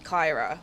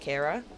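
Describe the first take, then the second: First: The first vowel sounds like 'eye'. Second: The first vowel sounds like 'ee'. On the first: The speaker calls it wrong. "people calling me Kyra" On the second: The speaker calls it right. "it's obviously pronounced Kira"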